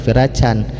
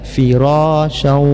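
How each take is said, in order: First: The word ends with a clear n sound. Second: The word ends nasally merging into a w sound. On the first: The speaker calls it wrong. "tidak dibaca lagi firacan" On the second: The speaker calls it right. "Memasukkan nun mati ke dalam waw plus ada dengungnya"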